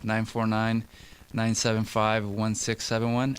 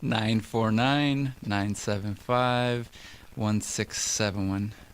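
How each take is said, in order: First: The number is read at normal speed. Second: The number is read more slowly.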